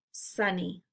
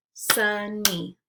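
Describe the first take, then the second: First: Said in the usual way. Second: "Sunny" as two separate beats, Sun – ny; syllables split apart. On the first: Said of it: "blend it together". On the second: Shown as a demonstration. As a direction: say "Sunny" syllable by syllable, pausing between. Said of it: "give you the parts of the syllable".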